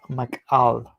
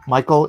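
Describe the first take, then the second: First: "Mikal" as mee-KAHL; "Mikal" in two syllables, not like English Michael; Hebrew pronunciation of Michal. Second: Said in the usual way. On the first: Shown as a demonstration. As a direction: say "Mikal" with a k and an open "ahl". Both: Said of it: "Michael is pronounced Mikal".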